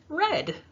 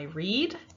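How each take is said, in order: First: The word has a short 'e' vowel. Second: The word has a long 'ee' vowel. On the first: The action happened in the past. "Yesterday I read. So same spelling, but different pronunciation" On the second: The action happens in the present. "Today I read"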